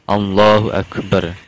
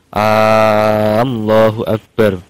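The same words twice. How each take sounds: First: The opening vowel of Allah is short. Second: The opening vowel of Allah is drawn out long. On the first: The speaker calls it right. "harus Allahnya dulu baru Akbar" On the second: The speaker calls it wrong. "tidak boleh memanjangkan hamzahnya lafal jalalah"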